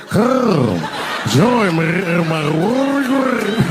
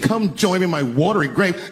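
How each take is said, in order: First: Very slow, drawn-out throaty gargle, higher and louder; rolled throat. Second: Said in the usual way. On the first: Shown as a demonstration. Joke book line redone with a rolled throat, eerie throaty drawl. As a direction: roll your throat through every word. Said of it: "you gotta roll your throat". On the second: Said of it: "No, you gotta roll your throat".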